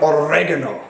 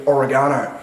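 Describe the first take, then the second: First: Oregano stressed on the second syllable, o-REG-ano; Italian-style pronunciation. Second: Oregano the usual English way, stressed on GA; commenters' pronunciation. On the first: Shown as a demonstration. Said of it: "That's how you pronounce the word". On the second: Retold or imitated. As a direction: mimic a corrector saying oregano as o-re-GAH-no. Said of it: "That's not the correct pronunciation".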